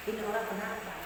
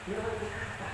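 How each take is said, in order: First: Mild muttered quote. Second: Soft quote. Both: Retold or imitated. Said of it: "Nabi hanya mengatakan".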